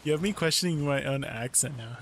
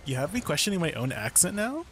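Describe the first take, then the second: First: Said in the usual way. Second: "now" lifted into a rising question tune; Australian upward inflection. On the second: Shown as a demonstration. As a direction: end the line going up, Aussie style. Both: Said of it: "No, you should, it should be like".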